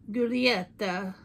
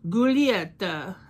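First: Slow "Giulietta" sounded out as goo-lee-ET-ta; careful pronunciation. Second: "Giulietta" slow and louder, goo-lee-ET-ta with Italian flair; Italian pronunciation. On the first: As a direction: say "Giulietta" slowly, each syllable placed. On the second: Vlogger guessing how the Italian shade name is said, slow and emphatic. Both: Shown as a demonstration. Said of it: "it looks like it's pronounced".

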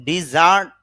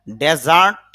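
First: ডিজার্ট as "di-zart"; verb pronunciation. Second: ডেজার্ট as a loud "de-zart"; noun pronunciation. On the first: Teacher contrasting verb with noun for learners, carefully pronounced. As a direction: say ডিজার্ট with i in the first syllable, second syllable stressed. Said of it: "verb হিসাবে". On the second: Teacher contrasting noun with verb for learners, carefully pronounced. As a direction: say ডেজার্ট with e in the first syllable, louder. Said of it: "noun হিসাবে অর্থ হবে". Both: Shown as a demonstration.

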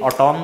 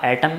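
First: "एटॉम" with a long open o; alternative pronunciation. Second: "एटम" with a short, unstressed second vowel; first pronunciation. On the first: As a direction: say "एटॉम" as a-TOM, full second vowel. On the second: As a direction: say "एटम" as English AT-um. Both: Shown as a demonstration. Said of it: "it is up to your pronunciation".

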